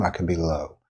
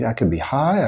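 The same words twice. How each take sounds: First: "low" dropped down softly; lowered, quieter "low"; low pitch. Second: "high" lifted well up; raised, high-pitched "high". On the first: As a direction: sink the voice on "low". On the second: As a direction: swing the voice up on "high". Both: Shown as a demonstration.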